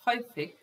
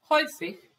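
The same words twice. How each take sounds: First: Said in the usual way. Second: "Häufig" said high and clear, HOY-fikh, stressed first syllable; model pronunciation. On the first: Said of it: "teacher repeats the word". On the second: Shown as a demonstration. Teacher to Serbian learners, modelling the new word: high, clear pronunciation. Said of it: "teacher models the word".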